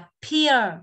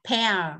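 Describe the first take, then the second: First: The vowel sounds like ear. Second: The vowel sounds like air. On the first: It means something completely different. The speaker calls it wrong. "nó là âm ear rồi" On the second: It names the fruit. The speaker calls it right. "Một là âm air, là pear"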